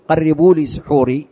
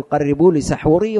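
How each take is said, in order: First: سحوري said wrongly as suhuri with u; سحوري as suhuri, the form not to use; wrong damma. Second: سحوري said correctly as sahuri with a; سحوري rising, with a after the s; correct fatha. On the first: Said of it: "ما تقول". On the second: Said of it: "لا، تقول". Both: Shown as a demonstration.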